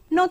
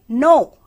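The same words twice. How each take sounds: First: The word is said softly and casually. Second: The word is said loudly and angrily. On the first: The speaker is politely turning something down. "When you are just casually denying something, you just say" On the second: The speaker is angrily refusing. "But when you are angry, you say, no, loudly"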